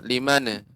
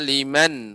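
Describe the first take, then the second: First: The n sound ends with a slight bounce. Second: The n sound is held steady without a bounce. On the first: The speaker calls it wrong. "Tidak liman" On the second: The speaker calls it right. "bukan memantul"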